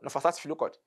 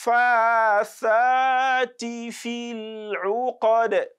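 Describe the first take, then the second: First: The vowels after f and th are short. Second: The vowels after f and th are lengthened. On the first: The speaker calls it wrong. "many people uh, mistakenly recite this as" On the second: The speaker calls it right. "both of them should be uh, elongated"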